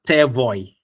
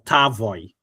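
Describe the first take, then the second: First: An e-like vowel separates the t and v. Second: An a-like vowel separates the t and v. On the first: "I wasn't Tevoy or Tavoy" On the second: "I wasn't Tevoy or Tavoy"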